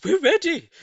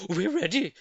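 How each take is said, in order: First: Much higher, louder bird chorus; birds answering. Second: Eager monkey chorus, a little high; monkeys answering. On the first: Birds answering Mugglewump, high loud chirpy reply. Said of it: "said the birds". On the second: Monkeys answering Mugglewump, eager reply. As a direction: call out ready like eager monkeys. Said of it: "said the monkeys". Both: A narrator's reading.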